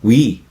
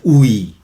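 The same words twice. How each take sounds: First: It is said as one gliding syllable. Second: It is said as two separate vowel sounds. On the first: The speaker calls it right. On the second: The speaker calls it wrong. "No decimos"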